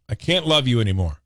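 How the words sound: It sounds fed up, like ending things.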